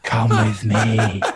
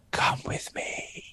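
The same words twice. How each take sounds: First: Said through laughter, louder and slow; laughing repeat. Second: Slow, breathless whisper; eerie whisper. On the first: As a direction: say it again, cracking up. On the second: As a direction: whisper it slowly like a ghost child. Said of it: "whispering, I can hear someone saying". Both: Retold or imitated.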